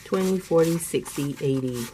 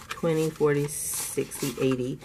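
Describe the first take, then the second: No difference in how they are said.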